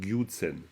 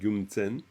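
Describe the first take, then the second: First: The first syllable has no nasal sound. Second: The first syllable ends in a nasal sound. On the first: The speaker calls it wrong. "vous n'allez pas dire Gyutsen" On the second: The speaker calls it right. "Parce que ça nasalise, c'est Gyumtsen"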